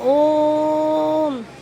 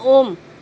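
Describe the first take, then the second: First: The word is drawn out, as if calling. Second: The word is said short and normal.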